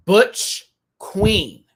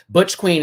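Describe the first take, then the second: First: "Butch... Queen", high, loud and split apart; each word proclaimed loudly with a pause between; emphatic announcement. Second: Said in the usual way. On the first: Real, not acted. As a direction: punch BUTCH and QUEEN as separate words. Repeats category name for emphasis.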